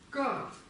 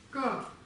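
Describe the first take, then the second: The two takes are said the same way.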